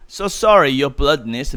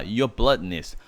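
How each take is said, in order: First: Butter him up with oily politeness; greasy flattery. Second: Said in the usual way. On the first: Acted. Peeves grovelling to the Baron, oily and fawning. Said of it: "he said grizzly". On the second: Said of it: "원래 bloodiness 하게 되면은".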